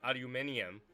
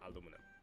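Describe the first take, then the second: First: The word ends with an 'ee-um' sound. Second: The word ends with a plain 'um' sound. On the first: This is how the rest of the world says it. "The rest of the world still call it aluminium" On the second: This is how Americans say it. "but we call it aluminum"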